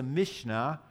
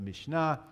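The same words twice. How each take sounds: First: Said in the usual way. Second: "Mishnah" with the accent on its last syllable, -NAH; Hebrew second-syllable stress. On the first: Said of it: "or in Hebrew you actually accent". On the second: Shown as a demonstration. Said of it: "you actually accent the second syllable".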